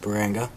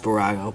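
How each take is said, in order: First: The name has an n sound before g. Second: The name has no n sound before g. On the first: The speaker calls it wrong. "but I always pronounce it Barango" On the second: The speaker calls it right. "I think it's supposed to be pronounced Barago"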